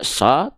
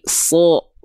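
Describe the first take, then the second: First: The vowel sounds thin, like A. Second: The vowel sounds heavy, like O. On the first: The speaker calls it wrong. "tidak so" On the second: The speaker calls it right. "tapi so. Terdengar seperti vokal O"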